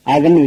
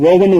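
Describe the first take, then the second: First: அவன்னு opening on a short "uh"; correct oven vowel. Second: ஓவன்னு opening on a long "oh"; mispronounced oven. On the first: Teacher giving the right form, அவன்னு with short A. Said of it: "உச்சரிக்கணும்". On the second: Teacher warning against this form, ஓவன்னு with long O. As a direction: say oven wrongly as "oh-ven". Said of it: "உச்சரிக்க கூடாது". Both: Shown as a demonstration.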